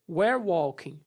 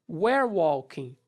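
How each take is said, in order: Both takes have the same delivery.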